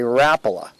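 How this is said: It is said the Midwest way.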